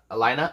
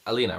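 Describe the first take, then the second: First: Alina said a-LIE-na, questioning; alternative pronunciation. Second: Said in the usual way. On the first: Shown as a demonstration. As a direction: say Alina with an "eye" in the middle, rising. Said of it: "it's Alina, right?". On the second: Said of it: "The first one is correct".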